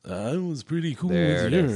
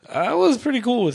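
First: It is said in a put-on podcast voice. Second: It is said in a natural speaking voice.

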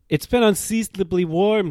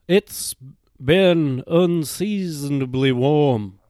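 First: It is said in the speaker's plain accent. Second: It is said in a put-on Southern accent.

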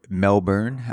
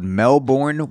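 First: It is said in an imitated Australian accent. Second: It is said in the speaker's usual American accent.

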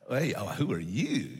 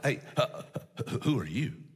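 First: It sounds excited and eager. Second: It sounds nervous and shocked.

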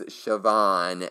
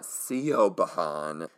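First: The name is said like 'Shivawn'. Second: The name is said like 'Saban'. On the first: The speaker calls it right. "her name is Siobhan" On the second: The speaker calls it wrong. "and not Siobhan"

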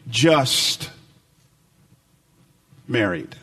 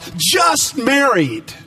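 First: It sounds flat and resigned. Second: It sounds bright and celebratory. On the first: The couple is merely married and nothing more. "just said a different way" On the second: The couple has newly wed. "two words were sprayed across the back of their cars"

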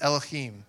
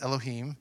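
First: The middle sound is harsh, throaty and spitty. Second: The middle sound is soft, without any spit. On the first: "you got to spit when you say it" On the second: "if you don't want to spit"

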